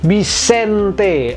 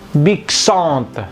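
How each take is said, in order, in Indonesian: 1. Suku kata tengah terdengar seperti 'en'. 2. Suku kata tengah terdengar seperti 'an'. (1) "En-nya berbunyi N" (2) "kalau sesuai teori harusnya"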